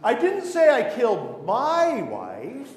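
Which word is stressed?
my. The word "my" is stressed.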